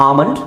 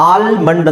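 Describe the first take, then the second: First: ಆಮಂಡ್ with the L silent, "aa-mand". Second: ಆಲ್ಮಂಡ್ said with the L sounded, "al-mand"; wrong pronunciation. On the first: Teacher giving students the correct ಆಮಂಡ್, L silent. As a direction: drop the L completely in ಆಮಂಡ್. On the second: Teacher showing students the wrong way, ಆಲ್ಮಂಡ್ with L sounded. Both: Shown as a demonstration. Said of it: "ಆಲ್ಮಂಡ್ ಅಂತ ಹೇಳಲ್ಲ".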